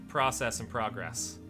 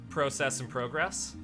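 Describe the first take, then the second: Both takes have the same delivery.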